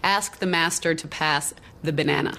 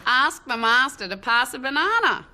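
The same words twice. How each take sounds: First: American accent, hard R on "master" and a flat "a" in "ask" like "æsk". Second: Broad Australian accent, no R in "master", pitched higher. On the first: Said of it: "to be said by an American". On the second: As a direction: say "Ask the master to pass a banana" like a broad Aussie, drop the R. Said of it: "something quite broad". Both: Shown as a demonstration.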